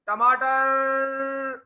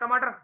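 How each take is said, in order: First: The word is called out in a lively, tuneful way. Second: The word is said flatly, without any expression. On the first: Everyone turns to see who has come. The speaker calls it right. "वो कैसे बोलता है टमाटर, उसका बोलने का अंदाज" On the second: Nobody pays attention to it. The speaker calls it wrong. "नहीं सुनोगे"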